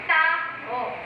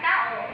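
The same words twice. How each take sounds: First: The word is said with added emphasis. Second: The word is said quickly and lightly. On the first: "ang malumi naman ay may diin siya" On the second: "ang malumay doon ay ang mabilis na pagbigkas"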